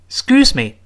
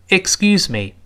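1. 说得快，第一个音节几乎听不见。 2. 说得慢，每个音节都听得很清楚。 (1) "那个ik 说的太快，顺着声音就飘走了" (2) "如果不着急慢慢说，依然能够听全这个音节"

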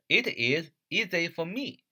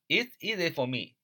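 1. 读得慢，it is 分开念。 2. 读得快，it is 缩读。

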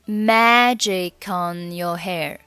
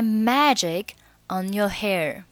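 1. magic 直接连到 on，中间没有停顿。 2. magic 和 on 是分开读的两个单词。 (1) "你可以连读成magic on your hair" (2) "那你也可以选择不连"

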